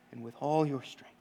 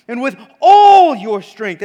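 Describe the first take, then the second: First: Quiet close. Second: Loud, ringing declamation; proclaimed. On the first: Preacher ending the recitation, suddenly soft. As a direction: let the last line fall softly. Same words dropped to low voice. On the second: Preacher reciting Jesus' command, booming it out. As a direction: call it out with full force. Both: Acted.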